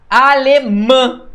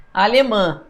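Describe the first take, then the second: First: Alemã slow and loud, landing hard on final MÃ; raised, drawn-out Alemã marking the MÃ; stress on MÃ. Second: Said in the usual way. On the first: Shown as a demonstration. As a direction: punch and lengthen the last syllable of Alemã. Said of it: "Mã é o mais forte". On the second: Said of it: "a sílaba mais forte é nasal".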